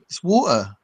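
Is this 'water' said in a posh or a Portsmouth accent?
Portsmouth. It is said in a Portsmouth accent. The local way is being defended. "no, it ain't"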